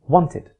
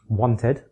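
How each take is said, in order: First: The second syllable has a weak i vowel. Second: The second syllable has a full e vowel. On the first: "reduced to I" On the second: "e can be reduced to I"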